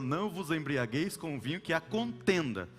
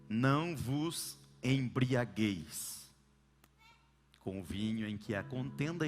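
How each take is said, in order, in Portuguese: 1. A ênfase recai sobre a palavra contenda. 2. A ênfase recai sobre a palavra embriagueis. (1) "Tem gente que coloca na contenda" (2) "colocam a força na palavra ou no verbo embriagar"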